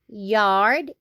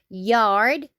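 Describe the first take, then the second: Both takes have the same delivery.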